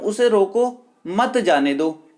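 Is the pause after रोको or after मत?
after रोको. The pause comes after रोको.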